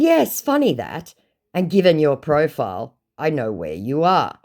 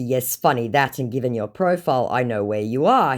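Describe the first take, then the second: First: Mock-amused comeback; pointed retort. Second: Said in the usual way. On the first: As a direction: retell a knowing jab at the scammer. First take, acted retort.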